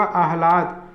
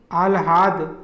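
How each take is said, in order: First: आह्लाद with h before l, "ahlad"; h first, then l in आह्लाद; correct आह्लाद. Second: आह्लाद with l before h, "alhad"; wrong आह्लाद. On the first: Teacher giving correct form, आह्लाद as "ahlad". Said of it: "ह रहेगा". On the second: Teacher showing the error, आह्लाद as "alhad". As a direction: swap h and l in आह्लाद. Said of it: "शुद्ध रूप होगा". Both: Shown as a demonstration.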